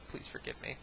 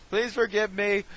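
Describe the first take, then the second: First: Soft, low-key mock plea; mock apology. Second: Loud, high mock plea; mock pleading. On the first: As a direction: say sorry quietly, half under your breath. Mock apology, first quieter plea. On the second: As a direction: beg forgiveness with hammed-up force. Mock apology, repeated as louder plea.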